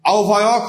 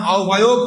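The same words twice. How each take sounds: First: আও ভায়ক ending in open "awk"; the rejected "au-bhayawk"; wrong ending. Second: আও ভায়ক ending in closed "ok"; the approved "au-bhayok"; correct ending. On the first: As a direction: open the last vowel, au-bhayawk. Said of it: "হবে না". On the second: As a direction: round the last vowel, au-bhayok. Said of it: "হবে". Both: Shown as a demonstration.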